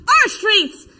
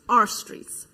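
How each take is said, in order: First: High, loud chant answer; yelled reply. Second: Said in the usual way. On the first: Acted. Answering a friend's chant in the march, yelling. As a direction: yell it right back to a comrade. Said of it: "And I yelled". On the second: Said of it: "a thousand people chanting".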